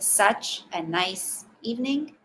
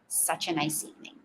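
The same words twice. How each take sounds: First: Each word is said separately with full sounds. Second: The words are linked together smoothly. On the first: The speaker calls it wrong. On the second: The speaker calls it right.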